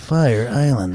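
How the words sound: It is said in a voice that doesn't care.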